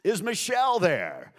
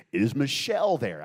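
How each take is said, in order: First: Big, slow, high radio-host holler; exaggerated loud DJ announcer. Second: Loud radio host on a call; booming radio DJ question. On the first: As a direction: stretch it out like a hyped DJ. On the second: Acted. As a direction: project it like an on-air DJ. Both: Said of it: "I'd put on my D J voice".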